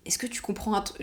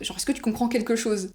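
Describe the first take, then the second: First: Breathy hushed whisper, no voice; whispered question. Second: Said in the usual way. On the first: Retold or imitated. Classmate secretly asking the new girl in class, whispering. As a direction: lean over and whisper it so the teacher won't hear.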